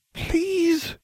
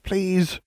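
First: Very high, testy repeat. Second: High-pitched polite please; a quick, high plea; first request. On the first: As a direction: press the plea impatiently, pitched right up. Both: A narrator's reading. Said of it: "she repeated testily".

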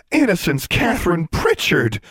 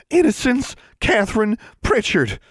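First: Shocked exclamation. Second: Put-on very high, scandalized girl voice; appalled older sister. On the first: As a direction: blurt the name out in disbelief. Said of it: "they both exclaimed together". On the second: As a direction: repeat the full name in outrage. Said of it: "Constance repeated". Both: A narrator's reading.

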